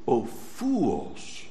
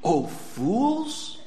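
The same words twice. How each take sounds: First: Lower, soft "Oh, fools" said with love; a shepherd's quiet, loving rebuke; tender rebuke. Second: Soft, gentle "Oh, fools" like a shepherd calling; a caring shepherd's soft rebuke; tender rebuke. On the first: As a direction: gently chide the sheep. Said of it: "He calls them". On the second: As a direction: call the troubled sheep fools with love. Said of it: "That good shepherd calls his troubled sheep". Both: Acted.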